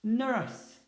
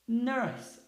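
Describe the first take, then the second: First: Nurse said clearly; English word nurse. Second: Nurse repeated; English word nurse. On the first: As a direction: model nurse for the class. (pronúncia de "nurse") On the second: (repetição de "Nurse") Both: Shown as a demonstration. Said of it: "A próxima".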